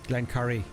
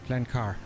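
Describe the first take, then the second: First: The second part sounds like 'curry'. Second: The second part sounds like 'car'. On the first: The speaker calls it right. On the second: The speaker calls it wrong.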